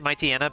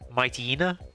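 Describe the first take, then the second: First: The ending does not sound like hyena. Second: The ending sounds like the word hyena. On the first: This is the habitual childhood pronunciation. "I always pronounce it Mightyena" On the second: This follows the animal the name is based on. "it's based off a hyena. So I guess you could also say Mightyena"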